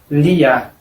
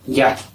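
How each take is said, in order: First: The li and the vowel are said apart. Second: The li blends into the vowel as one syllable. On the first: The speaker calls it wrong. "no es lia" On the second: The speaker calls it right. "es un li sobre la A"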